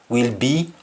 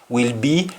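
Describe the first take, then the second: Both takes have the same delivery.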